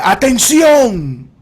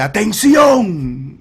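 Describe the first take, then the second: First: Louder, higher shout, last syllable held long; authoritative shout. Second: High, long-drawn call to attention; authoritative shout. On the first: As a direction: command a crowd to fall silent. (grito alto y alargado, con voz de autoridad) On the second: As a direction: shout it like you command the whole street. (grito con voz de autoridad) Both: Retold or imitated. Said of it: "grita con una voz de autoridad".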